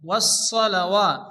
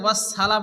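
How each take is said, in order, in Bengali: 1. s ধ্বনিটি মোটা ও ভারী। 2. s ধ্বনিটি পাতলা ও হালকা। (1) "সোয়াদকে মোটা করে উচ্চারণ করতে হয়।" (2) "অনেকে আছে ওয়াস সালা পড়ে, সালা পড়ে যাবে না"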